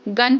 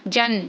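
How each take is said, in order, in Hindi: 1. शब्द hard g की आवाज़ से शुरू होता है। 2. शब्द j की आवाज़ से शुरू होता है। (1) "जी से गन पढ़ते हैं" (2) "इसको जी को वो ज पढ़ेंगे, ऐसे नहीं होता है"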